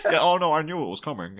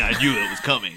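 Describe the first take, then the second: First: Higher, lightly put-on impression voice; mock knowing reply. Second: Said in the usual way. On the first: Podcaster imagining the actor caught out, higher mock voice. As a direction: act out the actor's slip into a silly voice. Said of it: "people would be like".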